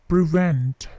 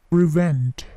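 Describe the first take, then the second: No difference in how they are said.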